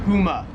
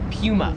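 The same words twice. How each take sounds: First: It is spoken with an American accent. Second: It is spoken with an Australian accent.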